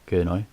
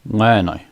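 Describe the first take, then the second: First: The word begins with a plain k sound. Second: The word begins with a nasal ng sound.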